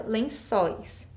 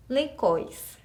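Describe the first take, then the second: First: "lençóis" with an s sound and open ó; correct word with cedilla. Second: "lecóis" pronounced with a k; missing cedilla. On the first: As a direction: say "lençóis" as len-SÓIS. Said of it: "eu coloco a cedilha". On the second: Teacher asks what is missing, "lecóis" with a hard c. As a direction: say "lecóis" as le-KÓIS. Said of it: "O que que falta na minha palavra". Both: Shown as a demonstration.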